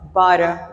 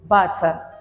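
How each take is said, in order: First: An American accent with the t like a d. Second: A British accent with a clear t sound. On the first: "In American, we pronounce it as butter" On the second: "in British, we pronounce it normally, keeping the ta sound original"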